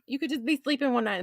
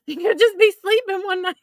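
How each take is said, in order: First: Said in the usual way. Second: High-pitched, words squeezed out by laughter; laughing hard. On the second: Real, not acted. Woman joking about exploding blankets, laughing hard. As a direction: squeal it through a laughing fit. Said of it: "I'm laughing so hard".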